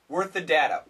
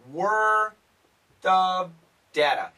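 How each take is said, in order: First: It is said faster with the F dropped. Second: The F sound in 'of' is kept.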